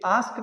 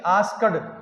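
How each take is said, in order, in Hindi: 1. अंत में छोटी 't' ध्वनि है। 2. अंत में 'ed' का अलग अक्षर है। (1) "ये आस्क्ड होता है आधा क्योट है" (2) "न कि आस्क्ड"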